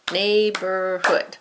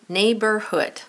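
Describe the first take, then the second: First: Neighborhood said very slowly, syllable by syllable; syllable stretch. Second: Said in the usual way. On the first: Shown as a demonstration. Teacher counting syllables, Neighborhood slowly stretched. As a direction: draw out Neighborhood to count its beats. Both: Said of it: "See it, say it".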